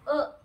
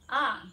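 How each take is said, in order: First: The vowel is held for one short beat. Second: The vowel is held for two beats. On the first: "एक मात्रा" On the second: "दोन मात्रा"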